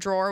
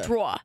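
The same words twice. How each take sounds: First: It is said with a standard accent. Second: It is said with a Rhode Island accent.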